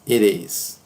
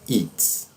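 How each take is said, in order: First: Two syllables, the t sounding like a light r. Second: One short syllable, contracted together. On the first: "Como se tivesse um R" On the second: "a forma mais comum, que é a do spoken English"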